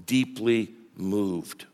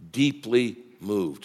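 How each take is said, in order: First: "Deeply moved" drawn out, low and soft; hushed, slow "Deeply moved"; stressed, very slow. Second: "deeply moved" slowed and dropped low; stress on deeply moved. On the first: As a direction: linger heavily on "Deeply moved". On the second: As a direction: lean on "deeply moved" slowly. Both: Shown as a demonstration. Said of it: "Circle that".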